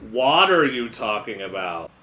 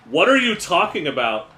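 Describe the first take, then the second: First: "What are" drawn out as one word, "water"; stretched "What are", landing like "water"; pun spelled out. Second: High, loud protest; incredulous, raised-voice question; indignant alligator. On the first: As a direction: slowly run "What are" together into "water". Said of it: "I mean". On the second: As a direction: protest loudly on a jump in pitch. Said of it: "And by "What are," I mean". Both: Acted.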